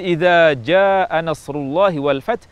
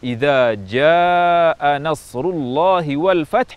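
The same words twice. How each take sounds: First: The vowel in jaa is kept short. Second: The vowel in jaa is drawn out long. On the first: The speaker calls it wrong. "dengan panjang dua harakat" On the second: The speaker calls it right. "lebih dari dua harakat"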